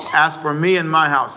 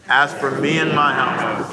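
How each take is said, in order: First: Said in the usual way. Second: Slowly, each word weighted: "As for me and my house."; slow unison recitation. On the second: Shown as a demonstration. Pastor reciting with the church, slow and deliberate. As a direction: lead the congregation through "As for me and my house" word by word. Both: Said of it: "Say it with me, please".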